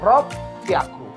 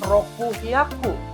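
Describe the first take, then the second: First: It is fused, with a doubled p sound. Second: Roku is said fully, then hyaku with h. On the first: The speaker calls it right. "tapi rok hyaku" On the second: The speaker calls it wrong. "bukan roku hyaku"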